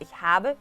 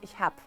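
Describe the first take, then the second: First: The verb ends with a final E vowel. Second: The verb ends with a B consonant. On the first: "no la decimos ich habe" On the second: "Es lo más común"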